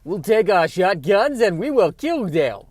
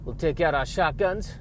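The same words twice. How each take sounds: First: Put-on loud, high, slow muddled accent; hammed-up Southern accent gone badly astray; unidentifiable accent. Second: Higher-pitched mock Texan, slipping; a put-on Southern accent morphing into another; badly held Texas accent; drifting Texas accent. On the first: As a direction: declare it in a wild, unplaceable accent. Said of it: "I don't know what accent that is". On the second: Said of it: "this is morphing into another, uh, kind of accent".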